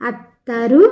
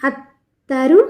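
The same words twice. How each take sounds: Both takes have the same delivery.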